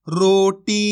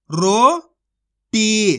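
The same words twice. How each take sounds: First: Said in the usual way. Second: Slow, stretched roti with a falling end; roti said slowly, sound by sound; drawn-out demo word. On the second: Shown as a demonstration. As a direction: draw out roti for learners. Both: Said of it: "तो मिलके बन जाएगा".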